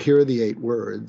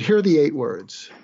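First: It is said in a plain, neutral tone. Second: It is said in a warm, inviting tone.

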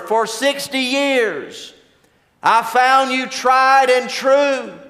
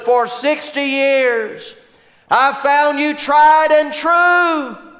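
First: It is said somewhat louder than normal. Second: It is yelled as loudly as possible.

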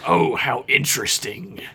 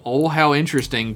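First: It is said imitating Odo's voice. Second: It is said in his normal voice.

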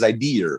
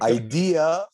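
First: It ends with an American R sound. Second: It ends in a plain vowel, no R.

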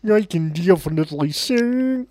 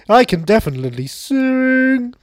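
First: It is said in the speaker's ordinary natural voice. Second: It is said in a put-on puppet character voice.

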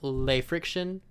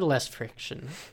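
First: Les sounds like 'luh', with no s sound. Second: Les sounds like 'less', with an s sound.

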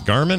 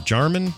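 First: The name begins with a hard G sound. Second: The name begins with a J sound. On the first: The speaker calls it wrong. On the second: The speaker calls it right.

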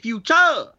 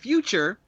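First: The stress falls on an unusual syllable. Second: The stress falls on the usual syllable. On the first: The speaker calls it wrong. "they stress the wrong syllables" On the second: The speaker calls it right. "instead of saying future"

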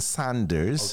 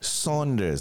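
First: The first syllable sounds like 'san'. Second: The first syllable sounds like 'saw'. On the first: "One is S-A-N, like okay" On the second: "And then there's like Hubert Saunders, that's yeah. S-A-U"

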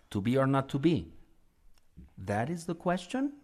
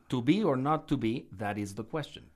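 First: It ends like a question. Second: It ends like a plain statement.

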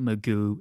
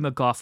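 First: The name ends with an 'oo' sound. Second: The name ends with an 'off' sound. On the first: This is the American way of saying the name. The speaker calls it wrong. "he can pronounce it Magoo if he wants. And to that, I say that is incorrect" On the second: This is the Irish way of saying the name. The speaker calls it right. "it might be McGough where you are"

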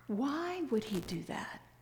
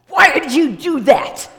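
First: It is asked in a curious tone. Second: It is asked in an accusing tone.

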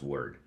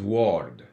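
First: The vowel is the standard English one. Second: The vowel follows the spelling with the letter O. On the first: The speaker calls it right. "in English, actually, it's pronounced word" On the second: The speaker calls it wrong. "because to him, that's the way it should be pronounced. That's how it's written"

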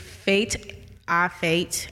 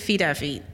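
First: The name is said with a 'fate' vowel. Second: The name is said with a 'feet' vowel. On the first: "It's Fate. Our Fate" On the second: "I don't think it's Feet Our Feet"

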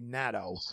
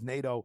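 First: NATO has the pronunciation heard in Ukraine. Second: NATO has the familiar American English pronunciation. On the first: "Many of the people over here back when I was in the Ukraine and now they say NATO" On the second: "the pronunciation we know is NATO"

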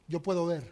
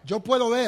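First: It is said at normal volume. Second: It is said more loudly.

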